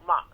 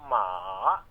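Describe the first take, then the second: First: It is said with the fourth Mandarin tone. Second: It is said with the third Mandarin tone.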